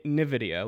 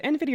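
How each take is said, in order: First: "nvidia" said as nih-VID-ee-uh; alternative pronunciation. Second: "nvidia" said as en-VID-ee-uh; alternative pronunciation. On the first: Host offering the other way to say the company name, alternative pronunciation. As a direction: open "nvidia" with a short "nih", no "en". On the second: Host asking guest how the company name is said, questioning pronunciation. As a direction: start "nvidia" with the letter sound "en". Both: Shown as a demonstration. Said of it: "I've been mispronouncing that".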